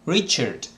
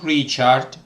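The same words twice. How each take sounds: First: The ending is reduced to an 'ert' sound. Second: The ending has a full 'ard' vowel. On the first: The speaker calls it right. "Every word ending A R D is pronounced ert" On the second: The speaker calls it wrong. "not Richard"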